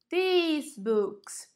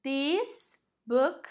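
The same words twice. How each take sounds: First: THESE with a long "ee"; emphasis on E. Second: Said in the usual way. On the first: Shown as a demonstration. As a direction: stretch the vowel in THESE before books. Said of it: "dá uma ênfase aqui no E".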